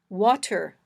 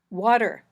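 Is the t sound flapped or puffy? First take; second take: puffy; flapped. First: The t is a clear puff of air. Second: The t is a quick voiced d-like tap. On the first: "a puffy t" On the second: "this flapped t"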